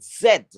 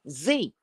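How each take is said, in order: First: Z said as "zed"; non-American Z. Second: Z said as "zee"; American Z. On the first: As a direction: say Z to rhyme with "bed", ending on a d. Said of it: "We call it". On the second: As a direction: say Z to rhyme with "see". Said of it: "In this country, they call that last letter". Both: Shown as a demonstration.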